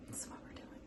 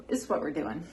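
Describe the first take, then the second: First: Whispered aside. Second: Said in the usual way. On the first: Shown as a demonstration. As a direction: repeat it as a soft whisper.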